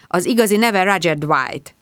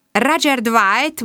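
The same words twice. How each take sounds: First: Said in the usual way. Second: ROGER DWIGHT slow and high, rising; questioning echo. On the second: A narrator's reading. Inspector echoing the name Roger Dwight, slow and high in question.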